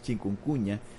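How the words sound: The word is said with a Spanish accent. The speaker calls it right. "en español es chikungunya"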